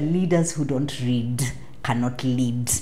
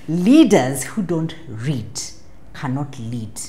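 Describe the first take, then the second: First: The phrase is spoken at a normal pace. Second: The phrase is spoken slowly and carefully.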